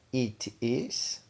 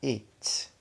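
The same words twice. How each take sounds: First: "It is" as two separate words; long form. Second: "It" closed with s, "its"; contracted form. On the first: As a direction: model "It is" in full, rising at the end. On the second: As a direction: merge it and is into one syllable. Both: Shown as a demonstration. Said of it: "diferenciar a forma longa de forma contraída".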